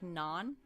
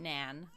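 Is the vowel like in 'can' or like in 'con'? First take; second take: con; can. First: The vowel sounds like the one in 'con'. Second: The vowel sounds like the one in 'can'. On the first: The speaker calls it right. "So like non" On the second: The speaker calls it wrong. "Not nan"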